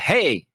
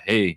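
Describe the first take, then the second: First: The voice is projected forward out of the mouth. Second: The voice is held back and sounds muted.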